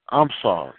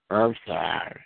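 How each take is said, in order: First: Low, plainly meant sorry; believable apology. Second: Put-on low, grudging child's sorry; insincere apology. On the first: Acted. Child warned by a parent, now apologizing believably. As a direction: apologize simply, as if you mean it. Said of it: "that's believable". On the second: Child made to apologize to a sibling, insincerely. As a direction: mumble a reluctant, unmeant apology. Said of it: "you don't say that right".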